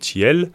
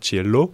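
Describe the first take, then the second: First: The word ends without the final o vowel. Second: The word ends with a final o vowel. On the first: This shortened form is used in poetry and songs to rhyme. "on dit Ciel" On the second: This is the normal full form of the noun. "au lieu de dire Ciello"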